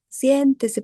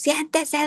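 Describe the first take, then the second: First: It is said loudly but in a warm tone. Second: It is shouted in a harsh tone. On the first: The patient feels kindly treated. The speaker calls it right. "así de manera, o sea, fuerte, pero cálida" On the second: The patient feels yelled at. The speaker calls it wrong. "le gritamos"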